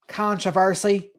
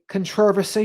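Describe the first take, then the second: First: It is said the American way. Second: It is said the British way.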